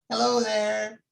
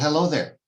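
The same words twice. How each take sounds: First: It imitates the elderly neighbor's voice. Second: It is said in the speaker's own voice.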